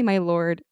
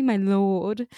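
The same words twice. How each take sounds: First: "my lord" in American, with the r sounded; American accent. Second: "my lord" in amateur British, no American r; British accent. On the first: Showing co-host what sounds improper, American-accented "my lord". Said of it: "in an American accent". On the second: Showing co-host the proper version, attempted British accent. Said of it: "my British accent is awful". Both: Shown as a demonstration.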